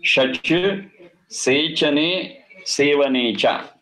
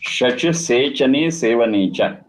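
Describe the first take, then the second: First: Sanskrit root "Shach Sechane Sevane Cha" drawn out syllable by syllable, very slow; "Shach Sechane Sevane Cha" at a slow teaching pace; slow recitation. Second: Said in the usual way. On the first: Shown as a demonstration. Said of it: "reciting the root slowly". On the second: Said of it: "repeats the root".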